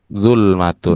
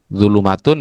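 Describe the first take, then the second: First: The l and m are joined without a vowel. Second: An extra vowel splits the l and m. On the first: The speaker calls it right. "seharusnya adalah zulmatun" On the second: The speaker calls it wrong. "Zulumatun ya keliru"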